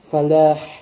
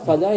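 First: The word ends with a breathy h sound. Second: The word ends without a final h sound. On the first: It means success. The speaker calls it right. "должен говорить фалях" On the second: It means desert. The speaker calls it wrong. "фаля это пустыня"

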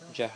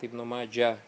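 First: The name ends with an audible final h sound. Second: The name ends without a final h sound. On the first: The speaker calls it right. "Джах обязательно надо говорить" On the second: The speaker calls it wrong. "многие люди, кстати, говорят ибн Маджа, пишут без буквы Га. Это неправильно"

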